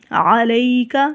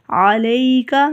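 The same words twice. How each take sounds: The two takes are said the same way.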